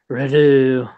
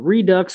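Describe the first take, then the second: First: The final x sound is silent, French style. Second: The final x sound is clearly pronounced.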